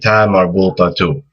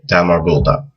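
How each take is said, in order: First: The word ends with an added u sound. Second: The word ends without a final vowel. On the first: Another word follows without stopping. "if you're saying another word after it ... just connect it so it has the flow" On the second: The speaker stops at this word. "if you just stop at the end of the word ... you won't pronounce this uh, this mark above here"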